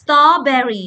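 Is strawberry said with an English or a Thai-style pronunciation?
English. It is said with an English pronunciation. The speaker calls it right. "เวลาอ่านให้อ่านว่า"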